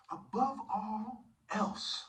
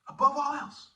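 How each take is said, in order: First: Drawn-out, weighty reading; lingering over each word of the verse; slow solemn emphasis. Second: Higher and much louder, punched out; loud proclamation. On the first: Preacher intoning the verse slowly to the congregation. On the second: Preacher shouting the verse at the congregation. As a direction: proclaim it like a command. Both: Shown as a demonstration.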